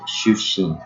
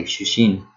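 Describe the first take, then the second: First: Shushin with a held pause before the second sh; pause inside word. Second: Said in the usual way. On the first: Shown as a demonstration. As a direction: stop briefly mid-word in shushin. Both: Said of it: "there's this as a pause".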